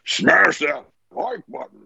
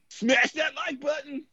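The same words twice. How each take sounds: First: It is said in a Grimlock voice. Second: It is said in his normal voice.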